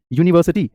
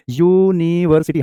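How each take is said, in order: First: Said in the usual way. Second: यूनिवर्सिटी drawn out as yoo-nee-var-sity; syllable-by-syllable pronunciation. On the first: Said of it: "pronounce करेंगे". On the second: Shown as a demonstration. Teacher showing students the first sound, यूनिवर्सिटी slowly broken up. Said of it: "कुछ इस तरीके से बोलेंगे".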